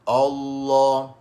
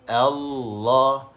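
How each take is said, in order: First: The opening vowel is heavy and thick. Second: The opening vowel is light and thin. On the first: The speaker calls it wrong. "bukan jangan baca" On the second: The speaker calls it right. "kita baca dengan nipis"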